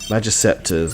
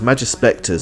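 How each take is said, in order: First: The middle sounds like 'sep', with no 'spec' cluster. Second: The middle sounds like 'spec', with s before p. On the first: The speaker calls it wrong. "I keep saying it wrong" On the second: The speaker calls it right. "it's Magispectors"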